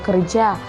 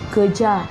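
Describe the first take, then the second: First: The middle r sound is pronounced. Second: The middle r sound is dropped.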